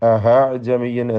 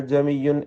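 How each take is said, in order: First: An h sound replaces the glottal stop. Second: The vowel is stretched long with no stop. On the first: "ചിലർക്ക് ഹാ കടന്നു വരും" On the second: "ദീർഘം നൽകുകയുമല്ല"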